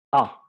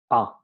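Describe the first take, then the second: First: A sung out open and loud from silence; open vowel demo. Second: Said in the usual way. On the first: Shown as a demonstration. Teacher showing students the vowel at maximum opening, loud. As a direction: open the mouth fully on A, peak volume. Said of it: "Llegamos al máximo de apertura ... máximo volumen". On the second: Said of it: "partimos desde nada, desde reposo".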